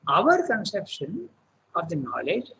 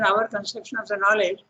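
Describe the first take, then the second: First: The word 'our' is said with strong emphasis. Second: The word 'our' is said plainly, without emphasis. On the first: It is the author's own view. The speaker calls it right. "when I read, I will read it like that" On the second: It sounds like a general statement. The speaker calls it wrong. "If you read just like an our conception of the knowledge"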